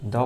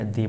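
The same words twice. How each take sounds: First: द said as "thuh"; "thuh" sound. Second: दी said as "thee"; "thee" sound. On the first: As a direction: pronounce द with a neutral vowel. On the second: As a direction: pronounce दी with a long "ee". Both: Shown as a demonstration. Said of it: "द pronounce करें या दी".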